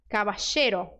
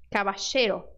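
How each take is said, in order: Both takes have the same delivery.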